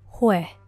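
The word ends in a faint breath. "con la pronunciación puertorriqueña"

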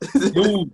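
The word sounds cold and dismissive. Who is this guy? "the way Miami guys say it"

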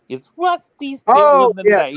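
It is said in an imitated character's voice.

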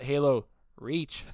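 There is an odd pause between the words. The speaker calls it wrong. "That was a weird pause"

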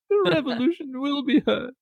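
It sounds hesitant and unsure.

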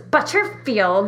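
The name is said in a sharp, irritated tone. The speaker feels irritated. "if I'm kind of in a more irritated mood"

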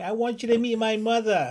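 It is spoken in a New York accent. "that New York accent"

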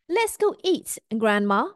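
There is a pause between 'eat' and 'Grandma'. The speaker invites Grandma to come and eat.

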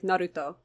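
The name is said with a Japanese-style pronunciation.

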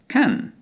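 The vowel is a short, open British ah. "for the British, this sound is actually pronounced ah. Very shortly and openly"

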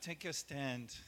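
It is said weakly and half-heartedly.

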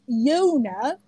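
The name is said with a British vowel. "my name is Yona in English"

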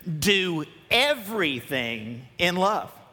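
The word 'everything' gets strong emphasis. "Let's put emphasis on everything and read it"

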